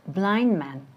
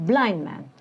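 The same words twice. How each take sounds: The two takes are said the same way.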